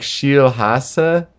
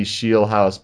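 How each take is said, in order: First: Scheelhaase as sheel-HAH-suh, drawn out; corrected pronunciation. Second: Scheelhaase said as SHEEL-house; TV pronunciation. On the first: Host correcting the TV way, Scheelhaase as sheel-HAH-suh. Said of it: "it's more like". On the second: Podcast host showing how TV says it, Scheelhaase as SHEEL-house. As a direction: say Scheelhaase ending like the word "house". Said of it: "that's how they say it on T V". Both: Shown as a demonstration.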